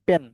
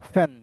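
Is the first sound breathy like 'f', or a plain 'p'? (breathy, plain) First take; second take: plain; breathy. First: The first sound is a plain, unaspirated p. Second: The first sound is a breathy, aspirated p. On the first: The speaker calls it wrong. "পেন জানি" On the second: The speaker calls it right. "Right উচ্চারণ কেমন আসবে জানেন? ... ফ উচ্চারণ আসবে"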